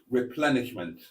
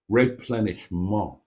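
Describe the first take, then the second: First: Said in the usual way. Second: "replenishment" said the French way, ending nasal and clipped; French-style pronunciation. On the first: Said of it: "or, if you prefer". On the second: Shown as a demonstration. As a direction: give "replenishment" a French flourish. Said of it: "Many things sound better with a French accent".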